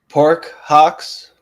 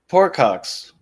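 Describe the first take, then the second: First: The two words are said slowly and apart. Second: The two words are run together quickly.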